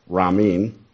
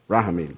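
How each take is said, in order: First: The middle syllable is dropped. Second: The middle syllable is fully pronounced. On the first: The speaker calls it wrong. "Did I say it right? Nope" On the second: The speaker calls it right. "That's right, that's right"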